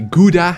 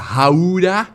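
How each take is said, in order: First: It is said with a foreign English-style pronunciation. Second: It is said in a cartoon character's odd pronunciation. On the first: "how it's always uh, mispronounced outside of the country" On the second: "how Bubble Bass says it"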